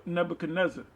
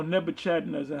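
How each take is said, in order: First: Nebuchadnezzar with a hard k, "neb-uh-kuh-NEZ-er"; alternative pronunciation. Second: Nebuchadnezzar with a ch sound, "neb-uh-CHAD-nez-er"; alternative pronunciation. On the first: Preacher naming the king Daniel spoke to, Nebuchadnezzar said with a k sound. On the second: Preacher offering another way to say the king's name, Nebuchadnezzar with "chad". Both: Shown as a demonstration. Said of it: "however you wanna say it".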